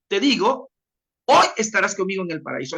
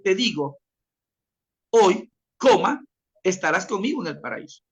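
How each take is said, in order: First: The pause comes before "hoy". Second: The pause comes after "hoy".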